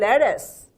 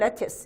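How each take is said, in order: First: American accent, with a soft flapped t sound. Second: British accent, with a crisp clear t sound. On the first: "미국식 영어에서는 lettuce. 트가 연음화 되거든요" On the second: "영국인들은 lettuce 이렇게 발음하죠"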